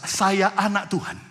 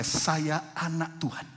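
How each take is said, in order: First: "Saya anak Tuhan" said louder, with full voice. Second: Said in the usual way. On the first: Shown as a demonstration. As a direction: proclaim "Saya anak Tuhan" with more force. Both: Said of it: "Lebih keras".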